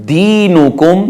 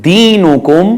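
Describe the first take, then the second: Both takes have the same delivery.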